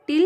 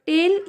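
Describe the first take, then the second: First: टिल said as "til" with a short i; correct pronunciation. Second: टेल said as "tel" with a long e; wrong pronunciation. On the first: Teacher shows students the right way to say tail, with a short i. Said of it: "ये सही pronunciation है". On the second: Teacher shows students the wrong way to say tail, with a long e. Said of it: "ये गलत pronunciation है". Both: Shown as a demonstration.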